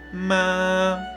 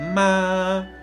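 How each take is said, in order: First: The pitch stays high and level throughout. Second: The pitch stays high and level throughout.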